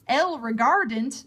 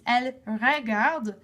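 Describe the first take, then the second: First: The ending of the verb is pronounced aloud. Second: The ending of the verb is left silent. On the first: The speaker calls it wrong. "So it's not elle regardant. That doesn't make any sense" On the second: The speaker calls it right. "with the silent E N T"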